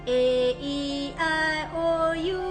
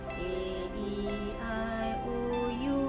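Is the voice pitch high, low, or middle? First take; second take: high; low. First: The vowels are said in a high pitch. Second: The vowels are said in a low, deep pitch. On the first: "Then kita buat high pitch" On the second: "dengan suara bass rendah"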